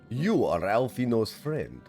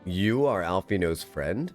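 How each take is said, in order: First: It is said in a put-on Russian accent. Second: It is said in the speaker's ordinary accent. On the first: The speaker calls it right. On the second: The speaker calls it wrong.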